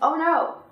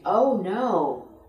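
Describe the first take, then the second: First: The words are short, clipped and choppy. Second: The words are smooth, linked and lengthened. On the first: The speaker calls it wrong. "We don't say" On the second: The speaker calls it right. "we say"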